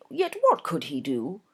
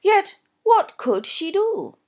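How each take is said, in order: First: Said in the usual way. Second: "what" leaned on, slow and high; stress on what. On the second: Shown as a demonstration. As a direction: punch "what" in the question.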